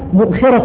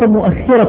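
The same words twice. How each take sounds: First: The kh sound is short and single. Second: The kh sound is doubled and held longer. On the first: The speaker calls it right. "الصواب مؤخرة الرحل" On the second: The speaker calls it wrong. "وليس مؤخرة الرحل"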